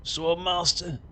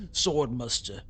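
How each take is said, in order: First: Put-on accent with a broad ah in "Master"; "Sword Master" with a long open mah sound. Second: Put-on accent with an uh vowel in "Muster"; "Sword Muster" said with a short muh sound. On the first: Shown as a demonstration. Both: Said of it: "That's not how that accent would actually say that word".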